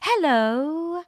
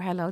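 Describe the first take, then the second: First: The greeting is said with exaggerated, overdone energy. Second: The greeting is said in a plain, ordinary way. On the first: "They say hello, hello. It's exaggerating" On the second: "They don't say uh, hey or hello"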